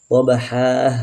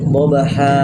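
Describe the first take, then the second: First: An extra breathy h ends the word. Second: The voice cuts off with a glottal catch. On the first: "Ada ha, ada ha di situ" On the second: "berarti terputus ... Menambah hamzah"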